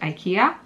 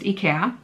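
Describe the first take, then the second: First: The name is said the North American way. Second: The name is said the Swedish way. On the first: The speaker calls it wrong. "in North America, for some reason, you pronounce it IKEA. That is not the correct pronunciation" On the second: The speaker calls it right. "That's how it's pronounced in Sweden, where it's from, and in Europe"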